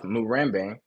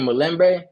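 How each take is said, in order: First: The middle consonant is an r sound. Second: The middle consonant is an l sound. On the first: This is how the speaker's own group says it. "instead of Murembe" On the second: This is how other ethnic groups say it. "they would say Mulembe"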